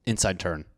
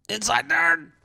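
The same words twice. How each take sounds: First: Said in the usual way. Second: "Inside turn!" jumped up high; high excited call. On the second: Real, not acted. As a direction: shout it up high, mocking.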